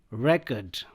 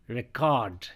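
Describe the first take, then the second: First: "record" as REK-erd, first syllable strong; stress on first syllable. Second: "record" as ri-CORD, second syllable strong; short start, lean on cord in "record"; stress on second syllable. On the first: Teacher drilling "record" as a noun, stress on REC. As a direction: hit REC in "record", reduce the ending. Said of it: "I'll pronounce these four words as nouns". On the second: Teacher drilling "record" as a verb, stress on cord. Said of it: "same words को अब यहाँ पे हम verb के रूप में". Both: Shown as a demonstration.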